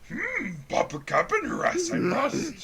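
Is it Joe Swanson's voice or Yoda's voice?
Yoda. It is said in a Yoda voice.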